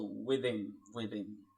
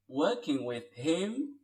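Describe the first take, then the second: First: "with him" linked, h dropped: "with 'im"; reduced him. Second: Said in the usual way. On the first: Shown as a demonstration. Teacher shows learners linking, "him" without its h. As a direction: run "with" straight into "'im". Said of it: "sound like "him".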